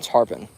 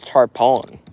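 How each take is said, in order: First: The second syllable is reduced to 'pin'. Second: The second syllable has a full 'pon' vowel. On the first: "but we call them tarpon" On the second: "if you pronounce it like phonetically"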